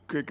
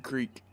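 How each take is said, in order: First: The vowel is short, as in 'sick'. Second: The vowel is long, as in 'seek'.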